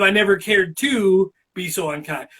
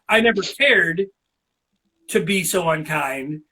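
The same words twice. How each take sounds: First: It is said without a pause inside. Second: There is a pause inside the sentence.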